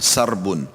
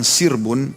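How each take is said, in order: First: The first vowel is an 'a' sound. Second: The first vowel is an 'i' sound. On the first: It means livestock. "kalau dibacanya dengan fathah" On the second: It means a flock of wild animals or birds. "dengan huruf sin yang dikasrah"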